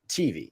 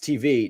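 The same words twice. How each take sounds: First: The stress is on the first syllable. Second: The stress is on the second syllable. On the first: The speaker calls it wrong. "you emphasize the T actually" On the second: The speaker calls it right. "It's it's T V"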